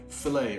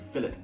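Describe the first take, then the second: First: It is said without an English accent. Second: It is said with an English accent.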